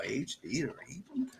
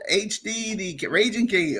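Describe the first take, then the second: First: Whispered. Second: Said in the usual way. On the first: Shown as a demonstration. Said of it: "repeat of the name in whisper". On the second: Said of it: "repeats name, second take whispered".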